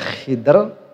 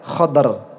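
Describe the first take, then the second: First: It has an i, with no vowel before r. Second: It has an a, with no vowel before r. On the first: "dan boleh mengsukunkan dod beserta kasrohnya kho" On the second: "ada yang baca khodr"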